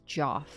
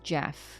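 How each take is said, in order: First: The vowel sounds like the 'o' in 'Joff'. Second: The vowel sounds like the 'e' in 'Jeff'. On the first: This is how the spelling makes it seem. The speaker calls it wrong. "my brain goes Joff" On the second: This is how the name is actually said. The speaker calls it right. "I understand that it's Jeff"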